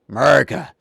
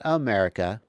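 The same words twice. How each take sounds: First: The word is said with a rough growl. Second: The word is said in a plain voice. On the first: The speaker calls it right. "The more you growl, the more American you are" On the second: The speaker calls it wrong. "not America"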